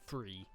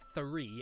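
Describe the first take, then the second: First: It begins with an F sound on the lip. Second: It begins with the tongue between the teeth. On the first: The speaker calls it wrong. "or free with an F" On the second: The speaker calls it right. "as in like tongue through the teeth, th th th"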